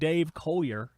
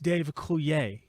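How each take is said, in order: First: The surname is pronounced the English way. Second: The surname is pronounced the French way. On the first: The speaker calls it wrong. "it's not Dave Collier" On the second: The speaker calls it right. "you don't say them how the English say them"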